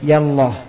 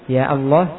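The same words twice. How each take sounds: First: The vowel of 'ya' is cut short. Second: The vowel of 'ya' is cut short.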